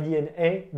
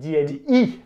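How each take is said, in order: First: The last letter is said with its French name. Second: The last letter is said with its English name. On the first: The speaker calls it wrong. "pas D N A" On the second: The speaker calls it right. "E se prononce I"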